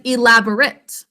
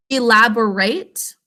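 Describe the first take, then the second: First: ELABORATE with a reduced "-rit" ending; adjective pronunciation. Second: ELABORATE slowly, with a full "-rate" ending; verb pronunciation. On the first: Teacher has class repeat the adjective, ELABORATE ending in short "-rit". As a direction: say ELABORATE as the adjective, last vowel short and weak. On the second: Teacher has class repeat the verb, ELABORATE ending in clear "-rate". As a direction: say ELABORATE as the verb, long A in the last syllable. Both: Shown as a demonstration. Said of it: "we pronounce it a little differently".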